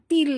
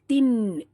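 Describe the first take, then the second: First: The syllable ends with an l sound. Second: The syllable ends with a nasal n sound. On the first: The speaker calls it wrong. "bukan til" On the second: The speaker calls it right. "tapi tin"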